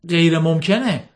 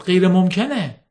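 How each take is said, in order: First: Said in the usual way. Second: Slow, firm repeat of غیر ممکنه; repeated firmly. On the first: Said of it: "گفت". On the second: A narrator's reading. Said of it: "تکرار کرد".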